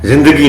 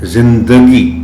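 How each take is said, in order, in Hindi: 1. d ध्वनि के बाद कोई स्वर नहीं आता। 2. d ध्वनि के बाद एक छोटा स्वर आता है। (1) "जिंदगी नहीं" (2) "दाल पर जबर को जाहिर करके पढ़ना है"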